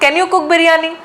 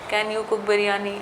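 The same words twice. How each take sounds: First: The pitch rises and falls in a lively way. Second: The pitch stays flat and monotone throughout. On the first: The speaker calls it right. "ऐसे बोलते हैं ना" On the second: The speaker calls it wrong. "क्या आपको ऐसी भाषा को सुनने का मन करता है?"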